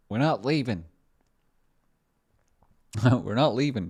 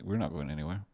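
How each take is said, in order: First: Loud, high catchphrase; mock defiance. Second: Said in the usual way. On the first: Streamer refusing to leave, mock-defiant shout.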